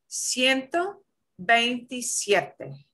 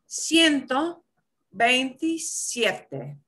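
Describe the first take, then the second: Both takes have the same delivery.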